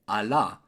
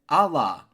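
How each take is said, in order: First: It is said with a French accent. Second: It is said with an American accent. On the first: "en français"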